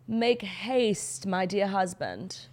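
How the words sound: It is said in a put-on accent.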